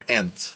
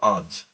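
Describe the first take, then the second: First: The word sounds like the insect ant. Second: The word does not sound like the insect ant. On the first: The speaker calls it right. "Ant, like a the the animal ant" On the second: The speaker calls it wrong. "It's not aunt"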